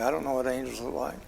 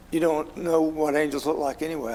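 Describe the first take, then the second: First: Softer and faster, half to himself; a quick hushed admission to himself; quiet aside. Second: Said in the usual way. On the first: Real, not acted. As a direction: mutter it quickly as a side thought. Quiet quick self-aside repeat.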